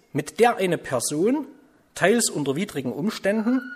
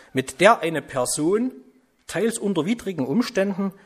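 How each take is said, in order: No difference in how they are said.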